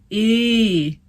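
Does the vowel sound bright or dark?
dark. The vowel is darker with more space behind. The speaker calls it right. "it was an e"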